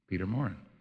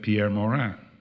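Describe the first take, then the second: First: The name is said with English pronunciation. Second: The name is said with French pronunciation. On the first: This is the anglicized form of the name. "he anglicized it" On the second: This is the original family form of the name. "the way his mother did"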